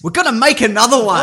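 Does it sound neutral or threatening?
threatening. It is said in a menacing, threatening tone.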